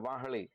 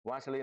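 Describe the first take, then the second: First: The middle consonant is an h sound. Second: The middle consonant is an s sound. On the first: This is the Kathiyawadi dialect form. "સ અને શ ને બદલે ઘણીવાર હ પણ બોલીએ" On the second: This is the standard form. "સ અને શ ને બદલે ઘણીવાર હ પણ બોલીએ"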